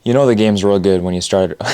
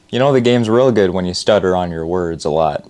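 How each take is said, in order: First: Tripping over words; stumbling through the line; stuttering. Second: Said in the usual way. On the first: Real, not acted.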